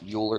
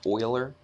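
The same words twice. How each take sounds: First: The name is said as it is spelled. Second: The name is not said as spelled. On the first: The speaker calls it wrong. "not Euler. It looks like Euler" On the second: The speaker calls it right. "it's pronounced Euler"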